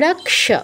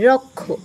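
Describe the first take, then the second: First: The cluster is sounded as k plus sh. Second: The cluster is sounded as a doubled kh. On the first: "ক অর্ধ উচ্চারণ, স পূর্ণ উচ্চারণ" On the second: "উচ্চারণ করছি হচ্ছে ক আর খ"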